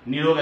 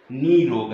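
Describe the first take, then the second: First: निरोग with short ni; wrong short I. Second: निरोग as NEE-rog, held first vowel; long I. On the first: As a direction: keep the first syllable of निरोग a quick ni. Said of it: "निरोग ऐसे नहीं आएगा". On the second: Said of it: "बड़ी ई की मात्रा है". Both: Shown as a demonstration.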